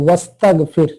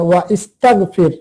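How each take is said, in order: First: The 'i' vowel after 'wa' is dropped. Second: The 'i' vowel after 'wa' is kept. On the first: The speaker calls it right. "হামজাতুল ওয়াসলিটাকে বাদ দিয়ে পড়ি" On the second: The speaker calls it wrong. "এভাবে বলি না আমরা"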